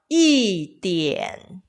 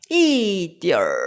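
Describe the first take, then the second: First: The word ends with a plain n sound. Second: The word ends with an r-colored sound. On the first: This is the Taiwanese way of saying it. "대만에서의 조금이라고 할 때 이디얼보다 이디엔, 우리는 이디엔이라고 합니다" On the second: This is the mainland way of saying it. "중국에서의 조금이라고 할 때 이디얼"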